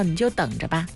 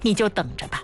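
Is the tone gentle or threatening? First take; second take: gentle; threatening. First: It is said in a gentle, patient tone. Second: It is said in a threatening tone.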